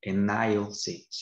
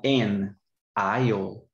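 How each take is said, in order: First: "an aisle seat" joined smoothly and slowly, a-NAIL seat; linked an aisle seat. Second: "an aisle" run together as one word, a-NAIL; linked an aisle. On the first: Teacher repeats the linked phrase slowly for her student. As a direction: link "an" into "aisle", then a clear "seat". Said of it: "a gente vai falar an aisle". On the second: Teacher shows her student the linking in "an aisle". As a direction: glide "an" straight into "aisle" with no break. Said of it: "emendar uma palavrinha na outra". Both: Shown as a demonstration.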